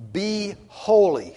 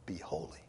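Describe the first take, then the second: First: "Be holy" high, loud and slow; loud slow command. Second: Quiet command. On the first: Preacher commanding the church, high and loud. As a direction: proclaim "Be holy" as a ringing command. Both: Shown as a demonstration. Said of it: "Be holy, that's the command".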